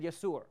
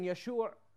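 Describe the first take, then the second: First: The middle consonant is an 's' sound. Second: The middle consonant is a 'sh' sound. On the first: "they said Yasur" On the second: "changes the she sound to a S sound. So instead of saying Yashur"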